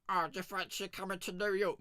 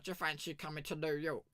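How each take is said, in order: First: High, put-on squeaky voice for the brother; a high goofy voice, just for a noise; silly made-up voice. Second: Said in the usual way. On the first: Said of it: "I just fancied making a noise". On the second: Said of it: "he was like".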